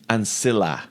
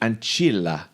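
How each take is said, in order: First: The c in ancilla sounds soft. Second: The c in ancilla sounds Italian-style. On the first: This is the basic Latin reading. "you would soften that. So ancilla" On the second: This is how Italian would read it. "if it was Italian, it would be ancilla"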